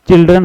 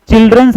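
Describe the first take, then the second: First: "चिल्ड्रन" ending on n, no final s; correct plural. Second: "चिल्ड्रंस" pitched higher, with a final s; wrong plural. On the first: Teacher giving students the correct form, "चिल्ड्रन" without final s. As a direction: say "चिल्ड्रन", stopping on the n. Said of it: "चिल्ड्रन होता है". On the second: Teacher pointing out the error, wrong plural "चिल्ड्रंस" with final s. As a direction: say "चिल्ड्रंस", sounding the extra s at the end. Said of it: "चिल्ड्रंस नहीं होता". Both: Shown as a demonstration.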